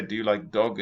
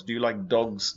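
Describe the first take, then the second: First: A contrasting take that drops the s from "dog"; wrong singular dog. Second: Said in the usual way. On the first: Shown as a demonstration. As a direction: say "dog" without the s, as the mistake. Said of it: "it sounds like you mean eating dog". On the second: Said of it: "Not dog".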